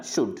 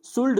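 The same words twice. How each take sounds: First: शुड with no l before the d; शुड with the L left mute; silent L. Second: शुल्ड with an l before the d; शुल्ड, silent L wrongly voiced; sounded L. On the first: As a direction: go from short u straight to d in शुड. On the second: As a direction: let the l be heard in शुल्ड. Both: Shown as a demonstration. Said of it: "शुल्ड नहीं पढ़ना".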